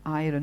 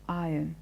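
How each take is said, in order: First: The R sound is clearly pronounced. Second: The R sound is left silent. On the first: The speaker calls it wrong. "it is not iron" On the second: The speaker calls it right. "The R is not stressed"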